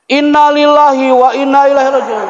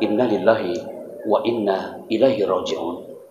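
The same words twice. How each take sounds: First: It is said loudly, almost shouted. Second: It is said softly and calmly. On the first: The speaker calls it wrong. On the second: The speaker calls it right.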